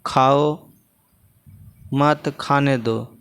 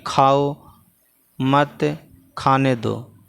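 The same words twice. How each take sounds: First: Long break after खाओ, then slow मत खाने दो together; pause after खाओ. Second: Slow खाओ मत, then a break before खाने दो; pause after मत. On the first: Teacher moving the comma for pupils, pause after खाओ. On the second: Teacher making a new comma example, pause after मत. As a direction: set मत apart, then say खाने दो. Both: Shown as a demonstration. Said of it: "अलग-अलग जगहों पर देखिए यहाँ लगा है".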